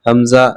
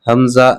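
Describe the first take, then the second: Both takes have the same delivery.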